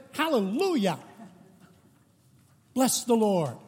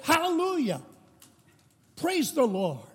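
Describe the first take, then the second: First: Pentecostal outburst. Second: A much higher, soaring cry of praise; Pentecostal outburst. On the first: Pentecostal lady interrupting the Presbyterian service, joyful cry. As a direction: burst out in praise like a Pentecostal lady in church. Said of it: "and the lady jumped up at one point and said". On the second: Lady jumps up again mid-service, soaring joyful cry. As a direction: leap up and call it out to the rafters. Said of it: "she jumped up again and she said". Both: Retold or imitated.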